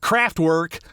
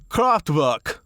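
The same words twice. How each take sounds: First: The name is pronounced in a lazy, low-effort way. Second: The name is pronounced with careful, deliberate effort. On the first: The speaker calls it wrong. "you're just not trying very hard" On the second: The speaker calls it right. "I like saying it that way"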